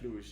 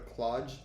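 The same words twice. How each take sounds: First: The final sound is a soft French 'j'. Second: The final sound is a hard English 'j'. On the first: The speaker calls it right. "but it's more like Cluj, yes. ... is the French G E, not the English G E" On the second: The speaker calls it wrong. "this is gonna be more like a Cluj"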